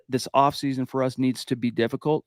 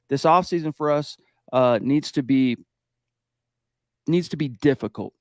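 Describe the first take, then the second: First: It is said smoothly without pausing or hesitating. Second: It hesitates and pauses before the final word.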